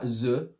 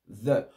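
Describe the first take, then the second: First: The th is made without the tongue at the teeth. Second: The th is made with the tongue at the teeth. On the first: The speaker calls it wrong. "Pas the" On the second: The speaker calls it right. "la langue, on va la mettre plus en dessous, juste un petit peu en dessous des dents"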